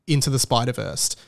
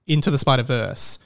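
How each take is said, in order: Both takes have the same delivery.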